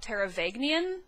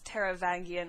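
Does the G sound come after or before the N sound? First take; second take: before; after. First: The G sound comes before the N sound. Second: The N sound comes before the G sound. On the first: The speaker calls it wrong. "switch the N and the G that are right next to each other" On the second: The speaker calls it right. "would be the closest thing I can think of"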